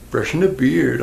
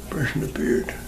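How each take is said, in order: First: Said in the usual way. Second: Brushing the beard whispered softly. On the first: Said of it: "Oh yeah, brushing the beard". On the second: Shown as a demonstration. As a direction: breathe brushing the beard as a secret. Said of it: "Oh yeah".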